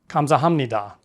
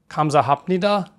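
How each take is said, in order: First: The third syllable ends with an m sound. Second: The third syllable ends with a clear p sound. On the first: "The second flows a bit more smoothly" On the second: "If you sound out the syllables"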